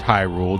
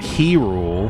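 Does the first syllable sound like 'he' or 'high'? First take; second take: high; he. First: The first syllable sounds like 'high'. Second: The first syllable sounds like 'he'. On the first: This is how the speaker said the name. "I called it High Rule" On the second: This is how a friend said the name. "my friend called it He Rule"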